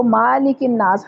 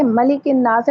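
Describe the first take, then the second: First: मालिकिन नास with a long 'maa'; wrongly lengthened vowel. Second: मलिकिन नास with a short 'ma'; short first vowel. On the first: Teacher shows a common mistake, long 'maa'. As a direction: stretch the first syllable of मालिकिन नास. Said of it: "इसको मालिकिन नास हरगिज मत पढ़िएगा". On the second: Teacher points out correct reading, short 'ma'. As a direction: keep the first syllable of मलिकिन नास brief. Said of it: "यहाँ देखें मलिकिन नास है". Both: Shown as a demonstration.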